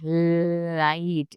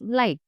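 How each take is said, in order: First: The L is curled back and heavy. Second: The L is light and forward. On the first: The speaker calls it wrong. "It is not like light. It's not like that" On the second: The speaker calls it right. "Keep it light and forward"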